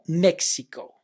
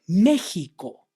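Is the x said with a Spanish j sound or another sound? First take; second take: another sound; j sound. First: The x is not said like a Spanish j. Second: The x is said like a Spanish j. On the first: The speaker calls it wrong. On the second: The speaker calls it right. "Mexico in Spanish is"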